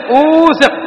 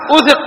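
First: "أوثق" higher, with a long "uu"; إثبات الواو. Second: "أوثق" cut to a short u: u-thiq; حذف الواو. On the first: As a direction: hold the first vowel of "أوثق": uuu-thiq. («أوثق» بمد الواو) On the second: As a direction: say "أوثق" with no long vowel. («أوثق» بضمة قصيرة دون مد) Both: Shown as a demonstration. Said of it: "حذفنا الواو فصارت".

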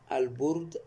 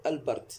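First: "البرد" said al-burd, with u; short u in "البرد", slightly rising; u vowel. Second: "البرد" said al-bard, with a; short a in "البرد", falling at the end; a vowel. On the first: Teacher shows both words differ, first al-burd with u. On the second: Teacher shows both words differ, then al-bard with a. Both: Shown as a demonstration. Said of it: "كلاهما".

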